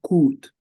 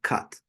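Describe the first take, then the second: First: The vowel is a long oo sound. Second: The vowel is a short uh sound. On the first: The speaker calls it wrong. "Number one is a strong sound oo. It, it, it would sound coot" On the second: The speaker calls it right. "we're pronouncing it cut"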